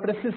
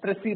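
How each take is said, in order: First: The word ends in an 's' sound. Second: The word ends in an 'ee' sound. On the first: The speaker calls it wrong. "it's called precise writing" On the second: The speaker calls it right. "That is what the pronunciation is"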